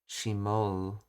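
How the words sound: It has the Kansai 'ou' vowel ending.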